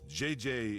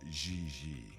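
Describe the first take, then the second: First: The name is said with English 'jay' letter sounds. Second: The name is said with soft French 'zhee' sounds. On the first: This is how it is said in America. "She may very well be J J in America" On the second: This is how it is said in France. "but in France, she is Gigi"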